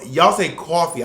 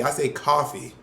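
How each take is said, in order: First: "coffee" with a rounded New York "aw", louder; New York thought vowel. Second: Said in the usual way. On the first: Retold or imitated. Friend showing how New Yorkers say it, "coffee" as "cawfee". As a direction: stretch "coffee" slowly into "cawfee". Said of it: "it's called the thought vowel".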